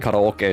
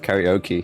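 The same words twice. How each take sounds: First: It is said with a Japanese pronunciation. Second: It is said with an English pronunciation. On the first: The speaker calls it right. "you need to recondition yourself to say karaoke" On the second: The speaker calls it wrong. "instead of karaoke"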